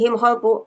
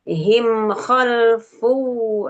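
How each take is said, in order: First: The mim is rushed so the sound jumps ahead. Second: The mim is held for one full, even beat. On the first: The speaker calls it wrong. "itu loncat" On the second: The speaker calls it right. "satu ketukan"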